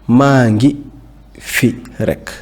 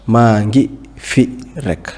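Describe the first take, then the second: No difference in how they are said.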